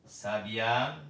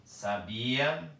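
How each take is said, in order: First: Sabiá with stress on the final á; sabiá stressed at the end, as the bird. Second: Sabia with stress on the middle syllable bi. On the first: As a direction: say sa-bi-Á, landing on the last syllable. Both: Shown as a demonstration. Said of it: "Se eu disser aqui".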